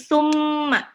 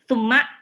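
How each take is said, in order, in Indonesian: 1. Bunyi m-nya ditahan panjang dan sengau. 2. Bunyi m-nya pendek dan tidak ditahan. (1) "Kalau gunnah itu dibaca ditahan ya" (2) "bukan cuma uh"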